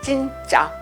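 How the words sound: It is said as a statement.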